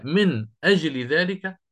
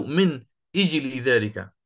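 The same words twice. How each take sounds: First: أجل with an open a: ajli, slowly; with fatha. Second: أجل with kasra: ijli, slowly. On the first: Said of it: "هل هي ... أو". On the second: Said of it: "أو". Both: Shown as a demonstration.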